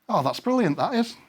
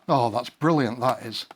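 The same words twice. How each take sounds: First: It is said with genuine, pleased enthusiasm. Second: It is said with a sarcastic, annoyed tone. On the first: Something good has happened. "this is fantastic" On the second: Something bad has happened. "a really terrible thing just happened"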